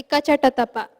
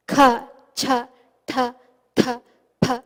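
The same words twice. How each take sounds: First: Ka, Cha, Ta said light with no puff of breath; unaspirated. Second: Kha, Cha, Tha with a strong puff of breath after each consonant; aspirated. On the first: Teacher contrasting alpa prana letters for students, unaspirated. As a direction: keep each consonant crisp, no extra air. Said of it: "it will be an alpa prana". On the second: Teacher demonstrating mahaprana letters to students, breathy aspiration. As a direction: push air from the belly into each letter. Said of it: "we use this air that is in our". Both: Shown as a demonstration.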